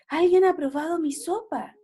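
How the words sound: The voice is soft and gentle.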